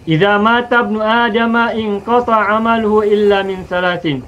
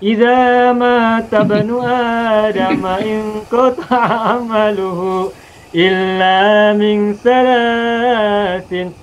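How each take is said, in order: First: It is read plainly at normal speaking speed. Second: It is read slowly with long drawn-out vowels.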